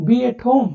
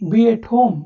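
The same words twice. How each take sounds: First: Breathy whisper, no voice at all. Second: Said in the usual way. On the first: Shown as a demonstration. Teacher repeating the phrase to learners in a whisper. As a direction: whisper it as if not to wake anyone. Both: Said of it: "teacher repeats phrase for learners".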